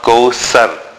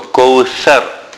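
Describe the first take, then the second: First: The middle consonant is a plain s sound. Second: The middle consonant is a soft th sound. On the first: The speaker calls it wrong. "not kawthar, as is commonly pronounced" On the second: The speaker calls it right. "the tha is unlike the letter sin"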